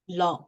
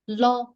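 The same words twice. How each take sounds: First: The pitch falls. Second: The pitch stays level and high. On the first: "The third" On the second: "The second"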